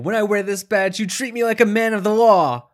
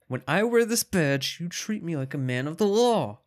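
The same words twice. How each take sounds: First: The line is delivered with strong intensity. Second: The line is delivered with less intensity. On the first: The speaker calls it wrong. "You said that with way more intensity than he goes" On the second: The speaker calls it right. "let me try this again"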